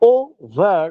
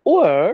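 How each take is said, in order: First: "ওভার" in two full syllables, o-ver; two-syllable pronunciation. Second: "ওভার" squeezed into one syllable, like o'er; one-syllable pronunciation. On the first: Teacher showing the ordinary word, "ওভার" as two syllables. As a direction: say "ওভার" with the v clearly sounded. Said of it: "দুটো syllable হয়ে যাবে". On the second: Teacher showing the poetic contraction, "ওভার" as one syllable. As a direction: say "ওভার" as a single syllable, dropping the v. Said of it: "হচ্ছে একটা syllable". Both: Shown as a demonstration.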